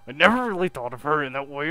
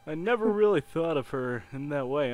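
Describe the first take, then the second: First: The line is read in an angry voice. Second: The line is read in a plain, calm voice.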